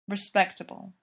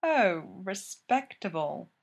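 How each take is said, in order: First: Said in the usual way. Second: Slowly drawn-out "Oh, respectable"; mocking echo. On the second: A narrator's reading. Miss Fisher echoes Jack's condition, drawing out "respectable" mockingly. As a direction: stretch "respectable" out, falling, in mock dismay.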